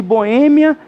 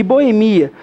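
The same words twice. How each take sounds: First: Boêmia stressed on the Ê, bo-Ê-mia. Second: Boemia stressed on MI, bo-e-MI-a. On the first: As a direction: land Boêmia on its second syllable. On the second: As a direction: move the stress of Boemia onto MI. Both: Shown as a demonstration. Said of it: "ter dupla pronúncia".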